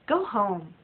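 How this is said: It is said in a harsh, rude tone. The listener is unwelcome and must leave. "The first way could be said to a person who came to a party of mine uninvited"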